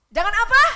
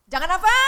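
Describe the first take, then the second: First: Even higher, louder shouted question; louder call-out. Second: Shouted question rising high; loud call-out. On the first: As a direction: push the crowd harder to answer. Preacher calls out again, louder. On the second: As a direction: call it out to the crowd, demanding an answer. Preacher calls out to congregation. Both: Real, not acted.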